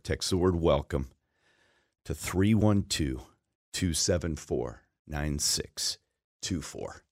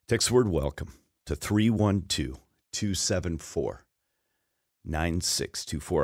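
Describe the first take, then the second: First: It is said slowly. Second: It is said at a normal pace.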